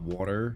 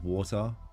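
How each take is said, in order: First: It is said in an American accent. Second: It is said in an Australian accent. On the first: "not water" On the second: "because I'm Australian, we say water, like water"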